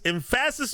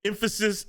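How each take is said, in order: First: "emphasis" with the stress moved onto the second syllable, em-PHA-sis; wrong-syllable stress. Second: Said in the usual way. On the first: Shown as a demonstration. Joking to his co-host about the word, "emphasis" stressed em-PHA-sis. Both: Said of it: "emphasis on the wrong syllable".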